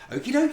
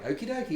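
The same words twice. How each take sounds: First: It is said in a happy, upbeat way. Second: It is said in Hank's casual, flippant way.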